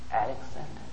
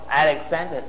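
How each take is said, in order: First: The name is said very softly. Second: The name is said loudly. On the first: "he replied very softly" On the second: "he said louder"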